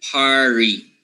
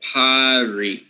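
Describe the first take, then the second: First: Party said with a dropped r, pah-ty; wrong party. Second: Party said with the r, par-ty; Party with a clear r before the t; correct party. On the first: Teacher demonstrating the mistaken party, r dropped. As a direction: contrast party as pah-tee, no r. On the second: Teacher demonstrating Party with the r sounded. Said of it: "Why not party as you were expecting?". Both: Shown as a demonstration.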